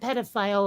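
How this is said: It is said with an American pronunciation. "like we do"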